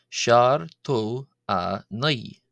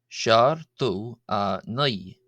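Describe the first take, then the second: No difference in how they are said.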